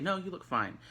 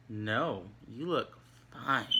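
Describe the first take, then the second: First: Higher, straightforward reassurance in one go; sincere, truthful. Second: Slow, drawn-out insincere reassurance; snarky. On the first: Reassuring Miss Gamble on her looks, sincere and truthful. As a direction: answer simply, as if you mean it. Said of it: "me telling the truth". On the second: Answering "Do I look bad?", slow and snarky. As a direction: stretch it out so it sounds untrue. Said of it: "I'm kind of being snarky". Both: Shown as a demonstration.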